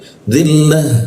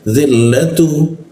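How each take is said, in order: First: The word ends with a final h sound. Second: The word ends with a tu syllable. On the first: The reader stops at this word. "kalau berhenti dia jadi ha" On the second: The reader continues without stopping. "kalau dibaca"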